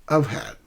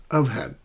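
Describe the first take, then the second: Both takes have the same delivery.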